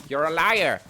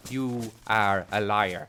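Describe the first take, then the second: First: Said in the usual way. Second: "are" punched, lower, firm; stress on are. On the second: Acted. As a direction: lean hard on "are" in "You are a liar". Acted quarrel, stress.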